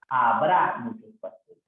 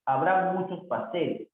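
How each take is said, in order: First: Emphatic, lengthened "Habrá"; stress on Habrá. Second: Said in the usual way. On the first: Shown as a demonstration. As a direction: lean on "Habrá" as the correction. Teacher stresses the corrected verb.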